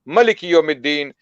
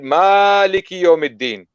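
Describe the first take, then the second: First: It is pronounced in the Warsh reading style. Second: It is pronounced in the Hafs reading style. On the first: "In Warsh, you would read" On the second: "in Hafs, you would read"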